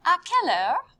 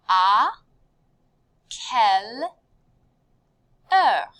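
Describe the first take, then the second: First: "À quelle heure" in one run, rising at the end; high, loud, connected "À quelle heure"; joined-up phrase. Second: "À", "quelle", "heure" with long pauses between; loud, separated teaching delivery of "À quelle heure"; word by word. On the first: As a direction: model the whole question without pauses. Teacher joins the phrase up. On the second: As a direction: model each word separately and firmly. Teacher models phrase word by word. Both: Shown as a demonstration.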